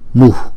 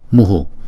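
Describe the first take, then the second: First: It ends with only a short puff of breath. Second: The breath is followed by an echoed u vowel. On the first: This is how it is read in this mantra. "trong câu chú này chúng ta đọc là mu, mu. Chúng ta hà cái hơi ra ngoài sau một chút" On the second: This is the general rule for the final breath. "theo nguyên tắc thì chúng ta lấy chữ nguyên âm ngoài trước là chữ U này, chúng ta choàng ra ngoài sau. Chúng ta đọc là muhu"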